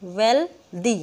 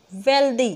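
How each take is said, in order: First: "wealthy" broken as वेल, दी; split syllables. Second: Said in the usual way. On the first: Shown as a demonstration. Teacher counts syllables aloud, "wealthy" in two parts. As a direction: pause inside "wealthy" after वेल. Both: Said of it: "इसमें भी दो हैं".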